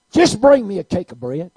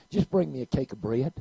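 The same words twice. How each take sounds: First: Insisting. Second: Said in the usual way. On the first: Acted. Elijah repeats louder.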